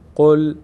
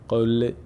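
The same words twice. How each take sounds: First: The final L sound is held and stops cleanly. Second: The final L sound vibrates with an extra echo. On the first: The speaker calls it right. "لام هیچ حرکتی نداره" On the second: The speaker calls it wrong. "نمیگیم قل قل"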